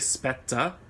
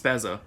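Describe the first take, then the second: First: The middle consonant sounds like 'ts'. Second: The middle consonant sounds like 'z'. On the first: "like S P E T Z A" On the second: "apparently it's Spezza"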